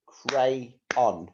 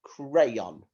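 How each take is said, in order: First: "Crayon" in two separate beats, cray, on; split into syllables. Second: Said in the usual way. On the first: Shown as a demonstration. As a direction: break "Crayon" after cray with a clear gap. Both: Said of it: "this has got two syllables".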